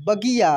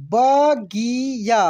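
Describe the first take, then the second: First: Said in the usual way. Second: बगिया slowly as ba, gi, yaa; syllable by syllable. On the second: Shown as a demonstration. Teacher reading for learners, बगिया slowly syllable by syllable. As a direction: stretch out each syllable of बगिया. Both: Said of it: "अब direct पढ़ते हैं".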